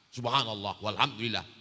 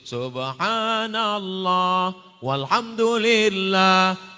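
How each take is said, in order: First: It is said fast. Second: It is said slowly.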